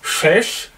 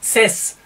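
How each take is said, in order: First: The consonant is a pure sh sound. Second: The consonant is a pure s sound. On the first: "Es ist nicht Schesch" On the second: "es ist nicht Ses"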